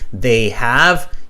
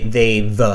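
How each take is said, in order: First: The two words are said fully and separately. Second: The two words are pulled into one syllable. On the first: "instead of saying they have" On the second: "pull the two words together"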